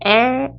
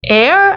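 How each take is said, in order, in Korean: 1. 모음과 혀를 말아 올린 r이 섞여서 하나의 소리가 됩니다. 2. 모음과 r이 각각 따로 들리는 별개의 소리입니다. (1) "강세 주시면서 얼 발음을 한 사운드로" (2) "air 아니고"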